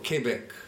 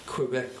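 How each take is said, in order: First: It is said with the local residents' pronunciation. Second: It is said with an ordinary English pronunciation.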